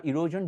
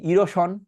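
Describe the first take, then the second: First: 'ইরোশন' with a voiced zh; actual English sound. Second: 'ইরোশন' with a sh sound; everyday Bengali pronunciation. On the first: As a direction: say 'ইরোশন' as irozhon. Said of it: "এইটা আসলে সাউন্ডগুলো কেটে একটু বলে দিই". ('ইরোশন' ইংরেজি zh দিয়ে) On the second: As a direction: say 'ইরোশন' with sh, not zh. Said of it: "আগে normally বলি". ('ইরোশন' বাংলা শ দিয়ে) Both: Shown as a demonstration.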